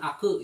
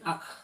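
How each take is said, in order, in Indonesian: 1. Setelah k, ada vokal yang dilepas. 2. K ditahan, tanpa vokal setelahnya. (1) "bukan aku ya" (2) "tapi ak, tahan ak"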